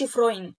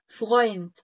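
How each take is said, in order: First: "فرويند" with a tongue-tip rolled R; wrong R, non-German. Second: "فرويند" with a throaty uvular R; correct German R. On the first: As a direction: say "فرويند" with Arabic ra for the R. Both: Shown as a demonstration. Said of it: "ما قولش فرويند".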